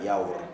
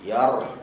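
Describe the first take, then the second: First: The lips are rounded, giving a w-like sound. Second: The lips stay unrounded, giving a clear r. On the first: The speaker calls it wrong. "Yaur tak nak yaur" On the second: The speaker calls it right. "Yar yarjumukum"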